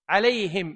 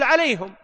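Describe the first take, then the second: First: The pronoun ending is said with an i vowel. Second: The pronoun ending is said without an i vowel. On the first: "فبعض العرب تجعل ضمير الجمع بالكسر" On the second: "وبعضهم تقول"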